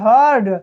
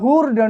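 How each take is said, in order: First: The vowel is a short 'uh' sound. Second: The vowel is an 'oo' sound. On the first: The speaker calls it right. "यू के बाद आर आया है तो हम यू का उच्चारण ... अ से करेंगे" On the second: The speaker calls it wrong. "ऐसे मत पढ़ दीजिएगा"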